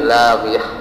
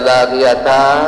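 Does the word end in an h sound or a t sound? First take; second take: h sound; t sound. First: The word ends with a soft h sound. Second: The word ends with a t sound and vowel. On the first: The speaker calls it right. "tetapi lagiyah" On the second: The speaker calls it wrong. "dia tidak dibaca lagiyata"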